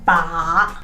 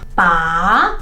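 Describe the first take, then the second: First: The syllable is said in the third tone. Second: The pitch rises from low to high. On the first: "the third one is ba" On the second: "the second tone is ba, from the bottom to the top"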